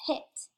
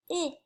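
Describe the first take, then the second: First: Said in the usual way. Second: "p-, it" split as a puffed P, pause, then IT; segmented word. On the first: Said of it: "the middle of the word". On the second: Shown as a demonstration. Teacher sounding out the last word, segmented. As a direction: sound out "p-, it" in separate pieces. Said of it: "let's segment that".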